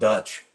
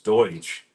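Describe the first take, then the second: First: The vowel sounds like 'uh', as in 'cut'. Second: The vowel sounds like 'oy', as in 'boy'. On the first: The speaker calls it wrong. "as they mispronounce it" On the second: The speaker calls it right. "It's Deutsch"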